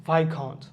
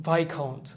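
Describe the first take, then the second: No difference in how they are said.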